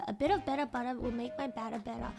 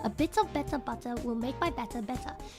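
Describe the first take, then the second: First: The T sounds are softened, close to a D. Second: The T sounds are fully and crisply pronounced. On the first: "That's the that's the Aus- Australian accent one" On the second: "if you were to actually like pronunciate the T"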